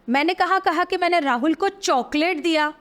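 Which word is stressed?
Chocolate. The stress is on chocolate.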